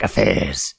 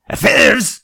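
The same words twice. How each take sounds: First: Said in the usual way. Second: "Affairs?" said high and loud with a rising tune; a mock-shocked "Affairs?"; scandalized affairs. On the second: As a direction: pounce on "Affairs?" as if it were a scandal.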